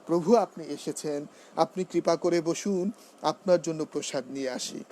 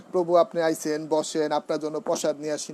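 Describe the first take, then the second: First: Careful standard এসেছেন and বসুন, neatly spoken; polished standard Bengali. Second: Casual regional Bengali, আইছেন and বসেন said loosely; colloquial dialect greeting. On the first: Devotee welcoming a guest, correct way: polished and courteous. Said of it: "এভাবে আমাকে সুন্দর করে গুছিয়ে কথা বলতে হবে". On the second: Devotee welcoming a guest, wrong casual way: loose dialect. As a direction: greet the devotee in everyday village speech. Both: Shown as a demonstration.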